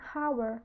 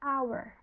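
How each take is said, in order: First: The word starts with an audible h sound. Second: The word starts directly with a vowel sound. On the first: The speaker calls it wrong. "hour walaupun diawali dengan huruf H, tapi kita bacanya bukan hour" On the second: The speaker calls it right. "tapi kita bacanya hour. Bunyinya itu uh, vokal"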